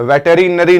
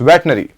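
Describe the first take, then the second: First: Every syllable is said, including the middle 'ri'. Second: The middle syllable is dropped, giving 'vet-nery'. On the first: The speaker calls it wrong. "ये वेटरीनरी नहीं है" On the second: The speaker calls it right. "ये it's वेटनरी"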